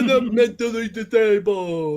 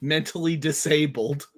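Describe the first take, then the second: First: It is said in a put-on funny voice. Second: It is said in his normal voice.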